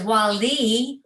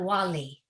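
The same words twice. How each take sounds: First: The stress falls on the second syllable. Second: Both syllables carry equal stress. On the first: It means the intimate friend. "The accent's on the second syllable" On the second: It means the governor or ruler. "there's accent on both the syllables"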